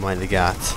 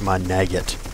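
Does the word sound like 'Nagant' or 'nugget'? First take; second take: Nagant; nugget. First: The word is said like the revolver name Nagant. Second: The word is said like the English word nugget.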